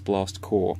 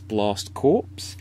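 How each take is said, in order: First: The last word ends without a 'ps' sound. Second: The last word ends with a 'ps' sound. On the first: The speaker calls it right. "It's Blast Core" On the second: The speaker calls it wrong. "you might read it as Blast Corpse. And Blast Corpse is not the right pronunciation"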